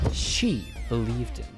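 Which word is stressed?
she. The word she carries the stress. "Let me stress each word"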